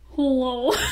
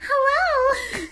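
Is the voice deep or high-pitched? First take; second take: deep; high-pitched. First: The voice is low and deep. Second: The voice is high and squeaky. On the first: "Do a deep voice" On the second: "high-pitched voice"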